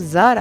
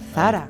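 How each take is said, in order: First: The name begins with a z sound. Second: The name begins with a th sound. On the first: The speaker calls it wrong. "مش هينفع بتقولوا زارا" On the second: The speaker calls it right. "ده ثرى"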